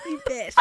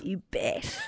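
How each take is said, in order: First: Much higher, squeaky "You bet". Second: Said in the usual way. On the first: Acted. Repeats in silly high voice.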